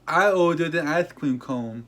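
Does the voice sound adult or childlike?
childlike. It is said in a childlike, little-kid voice. It sounds like a small child bragging.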